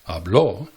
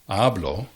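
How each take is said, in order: First: The stress is on the last syllable. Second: The stress is on the first syllable. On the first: He or she spoke, in the past. "Habló tiene la énfasis en la última sílaba" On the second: I speak, in the present. "Hablo tiene la énfasis en la primera sílaba"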